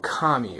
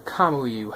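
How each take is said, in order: First: "Kami" said in two syllables; "Kami", ending straight on "ee"; alternative pronunciation. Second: "Kamui" with an added "oo" before the "ee"; alternative pronunciation. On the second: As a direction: say "Kamui" as "ka-moo-ee". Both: Shown as a demonstration. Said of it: "however you pronounce it".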